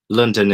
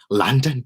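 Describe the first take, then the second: First: The word is said in the speaker's usual accent. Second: The word is said in an imitated London accent. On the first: "is how I would pronounce it in my normal accent" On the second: "I'm trying"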